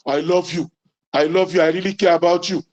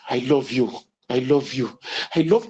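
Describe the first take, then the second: First: Blunt, careless I love you; unromantic way. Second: Much lower, intimate I love you; tender bedroom voice. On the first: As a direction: toss it off like a chore. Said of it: "Oh, it's not romantic, brother". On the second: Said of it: "the voice with which you say it". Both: Shown as a demonstration.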